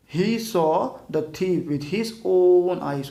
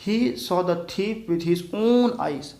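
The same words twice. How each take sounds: First: "own" pressed in a very slow read; stress on own. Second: "own" leaned on in a very slow read; stress on own. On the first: Teacher stressing "own" again for students. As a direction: push on "own", slowly. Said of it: "उस पर एकदम जोर दे रहा है". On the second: Teacher stressing "own" for the class. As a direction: drag the line, press on "own". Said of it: "एक और शब्द add कर रखा है". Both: Shown as a demonstration.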